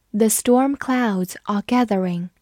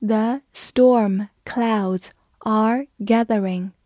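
First: Said in the usual way. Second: Very slow, word-by-word model reading; deliberate, drawn-out demonstration for learners; slow read-through. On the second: Shown as a demonstration. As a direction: leave a gap after each word. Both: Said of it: "慢慢来读".

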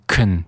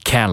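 First: "can" reduced to kun; "can" as a light k'n; weak form of "can". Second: "can" said strongly with a full a; "can" unreduced, as in a tin can; full vowel in "can". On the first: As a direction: shrink the vowel of "can" to a short uh. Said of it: "读成can就可以了". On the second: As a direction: give "can" its open æ vowel. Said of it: "我们不要再读成can了". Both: Shown as a demonstration.

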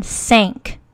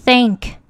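First: "thank" pronounced as "sank"; th读成s. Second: "thank" alone with a clear th, tongue out; 标准th音. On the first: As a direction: start "thank" with a hissing s, tongue in. ("thank" 读成 sank) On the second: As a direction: stick the tongue out to start "thank". ("thank" 咬舌读th) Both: Shown as a demonstration. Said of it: "听一下区别".

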